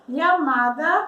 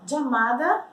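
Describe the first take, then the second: First: The first sound is like ly. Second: The first sound is like English j. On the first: "como se fosse um L H, mas não é tão usado" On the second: "como se a gente falasse jeans"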